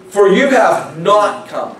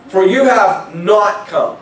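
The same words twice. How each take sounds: First: "For you have not come" said slowly with weight on "you", for the room to echo; stressed phrase again. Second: "For you have not come" said slowly, each word weighted, "you" leaned on; stressed phrase. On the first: Preacher modelling the verse for the congregation to repeat, slow stress. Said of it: "repeat that after I say it". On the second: Preacher stressing the verse to the congregation, slow and weighty. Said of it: "I'm gonna stress it right here". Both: Shown as a demonstration.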